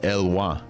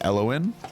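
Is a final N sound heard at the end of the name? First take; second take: no; yes. First: The name ends without an N sound. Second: The name ends with an N sound. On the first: "the N you typically wouldn't pronounce at the end" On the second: "I would pronounce this Elowin"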